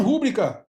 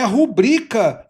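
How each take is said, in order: First: "rúbrica" as RÚ-bri-ca; wrong first-syllable stress. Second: "rubrica" as ru-BRI-ca, middle syllable stretched; stress on BRI. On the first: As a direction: hit the RÚ of "rúbrica". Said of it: "muita gente fala errado mesmo". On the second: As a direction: lean on the I of "rubrica". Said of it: "o correto é rubrica". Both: Shown as a demonstration.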